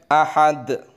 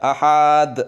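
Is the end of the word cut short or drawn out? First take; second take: cut short; drawn out. First: The word is stopped short at once. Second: The final vowel is drawn out long. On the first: The speaker calls it right. "Tetapi langsung direm" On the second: The speaker calls it wrong. "Biasanya agak ada yang panjang. ... salah"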